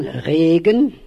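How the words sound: It is said in northern Low German.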